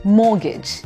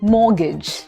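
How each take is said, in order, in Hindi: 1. बीच में T की आवाज़ साइलेंट है। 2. बीच में T की आवाज़ साइलेंट है।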